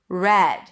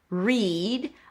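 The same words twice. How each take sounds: First: The vowel is lower and short, as in 'red'. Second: The vowel is high and long, as in 'reed'. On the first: The past form of the verb. "Then it's just an S sound" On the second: The present form of the verb. "a high E"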